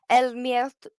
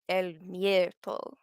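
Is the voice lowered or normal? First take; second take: normal; lowered. First: It is said in a normal voice. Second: It is said in a lowered, deeper voice.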